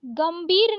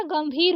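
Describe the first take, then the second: First: गंभीर said as gambeer; plain b in गंभीर; wrong ब for भ. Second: गंभीर with breathed bheer; correct aspirated भ. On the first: Teacher showing the mistake, गंभीर with plain b. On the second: Teacher correcting it, गंभीर with aspirated bh. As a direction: puff the भ in गंभीर. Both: Shown as a demonstration. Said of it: "गंभीर नहीं होता गंभीर होता है".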